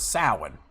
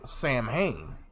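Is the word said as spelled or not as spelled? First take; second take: not as spelled; as spelled. First: The word is said unlike its written letters. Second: The word is sounded out letter by letter. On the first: The speaker calls it right. "It's actually pronounced as Samhain" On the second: The speaker calls it wrong. "The the word in its spelling sounds like it's pronounced as Samhain"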